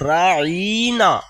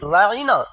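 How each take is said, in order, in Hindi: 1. शब्द को लंबे स्वर के साथ बोला गया है। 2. शब्द सामान्य स्वर-लंबाई के साथ बोला गया है। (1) "दुश्मनी में उसे बोला करते थे राइना या मद्दा के साथ" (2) "लफ्ज बोलते तो थे राइना"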